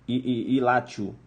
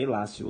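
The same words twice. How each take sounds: First: The consonant before -io is a t sound. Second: The consonant before -io is an s sound. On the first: This is how the word is written. "aí você escreve Ilácio" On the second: This is how the word is pronounced. "mas a pronúncia é Ilácio, latim"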